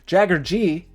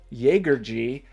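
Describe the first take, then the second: First: The first vowel sounds like in 'cat'. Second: The first vowel sounds like in 'day'. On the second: "I like Jaeger. It's a hunter in German"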